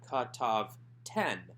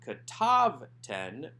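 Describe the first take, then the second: First: The stress is on the last syllable. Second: The stress is on the second syllable. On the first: The speaker calls it right. "strong enough to draw the accent to itself" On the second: The speaker calls it wrong. "So this is not katav ten"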